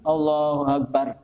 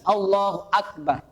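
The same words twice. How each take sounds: First: The glottal stop before Akbar is barely audible. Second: The glottal stop before Akbar is clearly pronounced. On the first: The speaker calls it wrong. "Hamzahnya tidak begitu ketara" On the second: The speaker calls it right. "Itu hamzahnya benar-benar jelas, benar-benar ketara"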